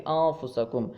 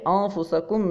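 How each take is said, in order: First: "انفسکم" with the noon hidden as a nasal hum; hidden noon (ikhfa). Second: "انفسکم" with a fully sounded n before f; clear noon. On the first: Teacher corrects to ikhfa, "انفسکم" with hidden noon. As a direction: let the n of "انفسکم" dissolve before f. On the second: Teacher shows the reading to avoid, "انفسکم" with clear noon. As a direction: pronounce the noon of "انفسکم" openly. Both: Shown as a demonstration. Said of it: "نون کو ہم ظاہر کر کے".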